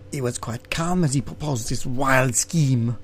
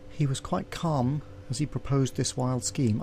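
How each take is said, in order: First: A hint of a French servant, lightly voiced; Passepartout's voice. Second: Said in the usual way. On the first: Shown as a demonstration. Reading the game text as the servant, lightly voiced. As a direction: narration redone as the French valet, barely changed. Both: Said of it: "I should do that bit in Passepartout's voice".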